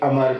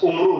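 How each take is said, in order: First: The name starts with an 'a' vowel. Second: The name starts with a 'u' vowel. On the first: The speaker calls it right. "ये अमर बिन अल Hasham" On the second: The speaker calls it wrong. "ये लफ्ज उमरू नहीं है"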